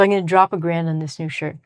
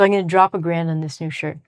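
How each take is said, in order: First: 'Going to' is squeezed quickly into 'gonna'. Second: The same.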